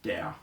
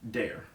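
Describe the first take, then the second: First: The R is pronounced the German way. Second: The R is pronounced the American way.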